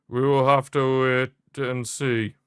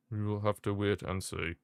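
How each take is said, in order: First: Slow, weighty, teasing delivery; drawn-out. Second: Soft, low murmured repeat; hushed. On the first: Streamer teases the World Cup final, slow and weighty. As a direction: stretch each word out for suspense. Repeats phrase for effect. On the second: Streamer trails off quietly about the final. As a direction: let it fall away to a murmur. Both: Real, not acted.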